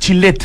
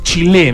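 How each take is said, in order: First: The name ends with a final T sound. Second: The name ends without a final T sound. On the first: The speaker calls it right. "sí se pronuncia" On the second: The speaker calls it wrong. "me imagino que la T no se pronuncia"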